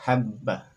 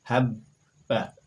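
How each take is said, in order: First: Habba, bb joined, not released; doubled b. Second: Habba with the double b held and joined; habba, bb held without a break; doubled b. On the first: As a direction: say habba in one bound sound. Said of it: "tidak boleh dilepaskan habba". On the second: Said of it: "dibaca secara bersambung". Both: Shown as a demonstration.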